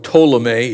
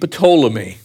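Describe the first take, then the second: First: The initial P sound is silent. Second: The initial P sound is pronounced. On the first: "if you pronounce it without the P" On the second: "Some people pronounce it with"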